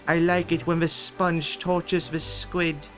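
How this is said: It is said in a put-on British accent.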